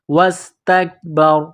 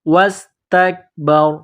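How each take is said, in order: First: The word ends on a bare 'r' sound. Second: The same.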